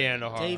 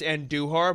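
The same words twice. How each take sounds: First: The name is pronounced the English way. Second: The name is pronounced the Spanish way. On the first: This is how people commonly say it. "but we all say Andujar" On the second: This is the name's actual pronunciation. "It's Andujar"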